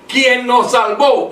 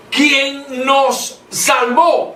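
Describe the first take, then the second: First: Said in the usual way. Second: Salvó with its final O stretched and stressed, said very slowly and higher; very slow reading, weight on the O of salvó. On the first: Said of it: "aquí dice". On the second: Shown as a demonstration. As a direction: lean hard on the O of salvó. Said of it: "con acento en la O".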